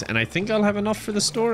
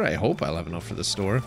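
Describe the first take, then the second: First: Optimistic guess. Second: Doubtful hope. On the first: First take, then corrected to hope. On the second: Restated lower, less sure. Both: Real, not acted.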